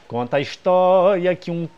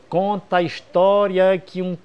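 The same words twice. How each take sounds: Both takes have the same delivery.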